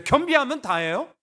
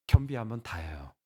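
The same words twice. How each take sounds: First: "겸비하면 다예요" high and loud, rising at the end; "겸비하면 다예요" as a high, incredulous question; challenging question. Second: "겸비하면 다예요" low, falling to a full stop; "겸비하면 다예요" as a low, calm statement; settled answer. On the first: Question take before his own answer. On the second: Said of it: "저의 답을 먼저 말씀드릴게요". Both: Acted.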